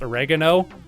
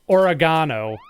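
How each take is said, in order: First: It is said with an American pronunciation. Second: It is said with a British pronunciation.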